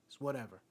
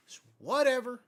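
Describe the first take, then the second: First: Said in the usual way. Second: "whatever" punched high and loud; stress on WHATEVER. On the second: Real, not acted. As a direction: repeat it with WHATEVER blown up, higher and louder. Repeats it, upset over lost game.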